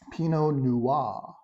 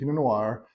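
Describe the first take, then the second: First: The final R of Noir is left silent. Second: The final R of Noir is clearly sounded. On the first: The speaker calls it right. "You don't pronounce the R at the end" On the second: The speaker calls it wrong. "pronouncing the long R. Uh, you don't, that's incorrect"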